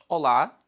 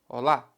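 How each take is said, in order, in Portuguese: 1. É dito com pronúncia portuguesa. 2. É dito com pronúncia espanhola. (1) "Em Portugal toda a gente diz olá" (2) "mas em Espanha nós dizemos olá"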